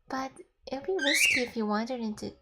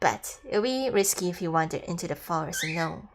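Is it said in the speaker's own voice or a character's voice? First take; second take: own voice; character's voice. First: It is said in the speaker's own voice. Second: It is said in the male character's voice.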